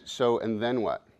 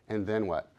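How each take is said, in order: First: "So, and then what" asked slowly; slow questioning. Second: Said in the usual way. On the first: Shown as a demonstration. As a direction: draw out "So, and then what" calmly. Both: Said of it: "this is a voice you can use with doubt".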